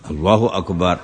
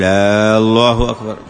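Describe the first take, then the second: First: The opening vowel is short, said as a statement. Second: The opening vowel is drawn out, like a question. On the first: It is a proper declaration glorifying God. The speaker calls it right. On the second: It asks a question rather than glorifying God. The speaker calls it wrong.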